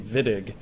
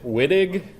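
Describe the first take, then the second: First: The name begins with a V sound. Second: The name begins with a W sound. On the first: The speaker calls it right. "no, it's a V. He's German. It should be Wittig" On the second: The speaker calls it wrong. "If you hear somebody pronounce it Wittig, you should slap them"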